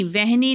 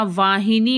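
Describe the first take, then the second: First: वहनी said short as vehni, no long aa; wrong spelling read out. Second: वाहिनी said with long aa and full hi, vaahini; correct spelling read out. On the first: Teacher sounding out the wrong form वहनी for students. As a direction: read the misspelt वहनी exactly as written. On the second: Teacher giving students the right form वाहिनी. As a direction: pronounce वाहिनी carefully, every syllable. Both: Shown as a demonstration. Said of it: "वहनी नहीं होता".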